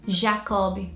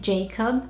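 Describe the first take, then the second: First: It is said with a Portuguese pronunciation. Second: It is said with a British English pronunciation. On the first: "in Portuguese, we'd probably say it" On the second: "In British, we would say"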